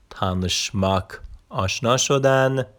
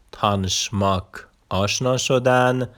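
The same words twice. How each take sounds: The two takes are said the same way.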